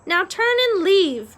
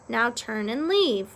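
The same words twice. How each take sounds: First: High, loud "Now turn and leave"; raised-voice echo of an order; loud parroted order. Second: Said in the usual way. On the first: A narrator's reading. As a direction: repeat the instruction out loud, pitched up. Meg wrongly echoes instruction to chef. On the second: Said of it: "Roscuro instructed".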